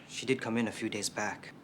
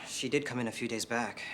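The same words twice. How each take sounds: The two takes are said the same way.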